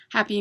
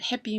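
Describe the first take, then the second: First: Said in the usual way. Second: "happy" said like "heppy"; German "happy", first vowel as in "hep"; German-style happy. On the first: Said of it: "in English when I say it". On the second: Shown as a demonstration. Contrasting the German loanword with English, German-style "happy". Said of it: "happy means in English when I say it".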